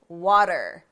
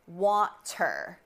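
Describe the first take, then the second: First: The middle consonant is a soft D sound. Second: The middle consonant is a clear T sound. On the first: "Americans say water" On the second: "we do not say water"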